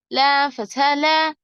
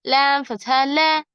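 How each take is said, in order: Both takes have the same delivery.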